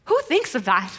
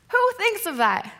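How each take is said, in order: First: Incredulous aside, close to usual pitch. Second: High-pitched incredulous question; amazed disbelief. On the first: Preacher reacting to Peter's idea, incredulous. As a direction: ask it in mild disbelief. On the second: Preacher marvelling at Peter's idea, high-pitched disbelief. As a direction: lift the pitch right up in disbelief. Repeats the question, much higher. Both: Real, not acted.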